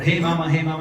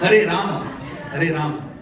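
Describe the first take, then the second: First: The words are slurred, with sounds dropped. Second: Every syllable is pronounced clearly and fully. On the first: The speaker calls it wrong. "Or hey mama, hey mama, mama, mama. No, no" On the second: The speaker calls it right. "Very clear pronunciation, very important"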